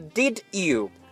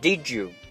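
First: The 'd' and 'you' are said separately. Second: The 'd' and 'you' are linked together. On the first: The speaker calls it wrong. "所以千万不要说" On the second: The speaker calls it right. "而是"

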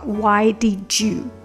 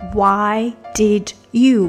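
First: Did and you blend together into one sound. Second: Did and you are said as separate words.

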